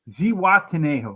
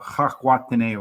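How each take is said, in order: First: The name begins with a z sound. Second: The name begins with a non-z sound. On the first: "That's probably how you pronounce it" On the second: "I don't think the Z though is a Z sound in Spanish though"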